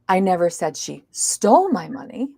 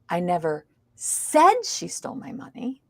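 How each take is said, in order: First: The word stole carries the stress. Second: The word said carries the stress. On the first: She may have borrowed it instead. "maybe she borrowed it" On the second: It was implied rather than said. "Now we're stressing a different word. It means I didn't say it. I might have implied it"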